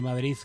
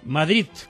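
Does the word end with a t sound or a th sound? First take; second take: th sound; t sound. First: The word ends with a soft th sound. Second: The word ends with a hard t sound. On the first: It is a relaxed, vulgar way of saying it. "nos sale Madrid con Z" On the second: It is typical of speakers from Catalonia. "con T, esta la podríamos llamar la pronunciación catalana"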